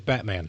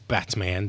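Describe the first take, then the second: First: The t is replaced by a glottal stop. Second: The t is pronounced as a full t. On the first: "they say Batman. Yet it's it's a glottal stop" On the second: "Nobody says Batman"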